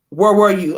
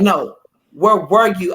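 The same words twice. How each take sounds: First: Said in the usual way. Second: Slow, deliberate "where were you"; insistent repeat. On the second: Retold or imitated. Husband presses wife for an answer, insistent. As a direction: lean on "where", stretching the question out.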